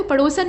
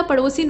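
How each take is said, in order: First: पड़ोसन ending "san"; wrong form. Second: पड़ोसिन ending "sin"; correct form. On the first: Teacher showing the mistake, पड़ोसन ending "san". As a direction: say पड़ोसन with a in the last syllable. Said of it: "नहीं होता". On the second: Teacher correcting it, पड़ोसिन ending "sin". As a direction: say पड़ोसिन with i in the last syllable. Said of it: "पड़ोसिन होता है". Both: Shown as a demonstration.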